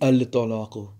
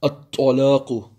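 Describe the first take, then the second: First: The L is pronounced before the T. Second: The L is dropped and the T is doubled. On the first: The speaker calls it wrong. "It doesn't be Al-Talaqu" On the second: The speaker calls it right.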